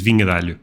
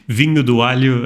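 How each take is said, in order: First: The middle word is said as 'de'. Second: The middle word is said as 'do'. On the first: The speaker calls it right. "the correct pronunciation is vinho de alho" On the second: The speaker calls it wrong. "I get why I said that"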